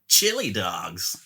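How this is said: It is said in a put-on Sonic voice.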